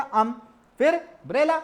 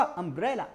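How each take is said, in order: First: Put-on "अम" then "ब्रेला", split apart like a child reading; broken into syllables. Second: "अम्ब्रेला" said as one smooth linked word; joined up. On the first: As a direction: sound it out in two separate pieces. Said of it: "पहले उसने क्या पढ़ा". ("अम... ब्रेला" अलग-अलग टुकड़ों में) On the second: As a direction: run the pieces together into one word. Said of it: "तो पूरा क्या हुआ". ("अम्ब्रेला" एक साथ जोड़कर) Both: Shown as a demonstration.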